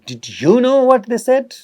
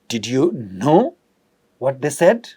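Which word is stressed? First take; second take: you; know. First: The emphasis falls on you. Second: The emphasis falls on know. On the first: "It has a meaning where we are putting emphasis on you" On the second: "We are talking about the act of knowing in prominence"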